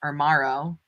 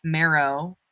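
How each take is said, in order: First: Morrow said with a rounded "mor" vowel; Morrow, rhymes with tomorrow; corrected name. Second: Marrow said with an open "mar" vowel; first, doubtful try at the name, Marrow; Marrow, said like the bone; unsure name. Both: Shown as a demonstration.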